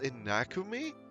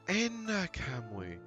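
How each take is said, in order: First: The name is said as Inakumi. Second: The name is said as Inakamui. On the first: The speaker calls it wrong. "I kept pronouncing it as Inakumi ... I know that was pretty much wrong" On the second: The speaker calls it right. "let me try that again"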